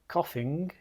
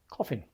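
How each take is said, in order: First: The word ends with a full ng sound. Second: The word ends with a plain n sound. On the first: "When I am coughing" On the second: "the pronunciation of coughing is often coffin"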